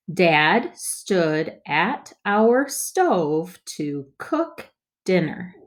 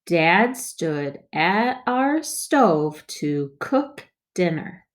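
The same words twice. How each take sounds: First: Slow, word by word; slow choppy reading. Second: Slow but joined up; smoother reading. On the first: Teacher models first slow read for kids. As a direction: read each word apart, slowly. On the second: Teacher models smoother second read for kids. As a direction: read it through more smoothly. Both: Shown as a demonstration. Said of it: "let's read it more smoothly".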